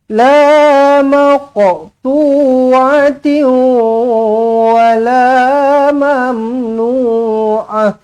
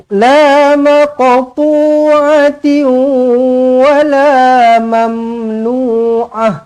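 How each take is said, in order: No difference in how they are said.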